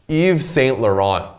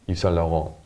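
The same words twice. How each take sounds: First: It is said with an American English accent. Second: It is said imitating a French accent.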